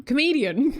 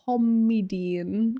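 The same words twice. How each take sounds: First: Said in the usual way. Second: "comedian" drawn out slowly as COM-ee-dee-un; sounded-out misreading. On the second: Shown as a demonstration. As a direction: sound out "comedian" slowly, first syllable stretched like "comm". Is that how you spell comedian.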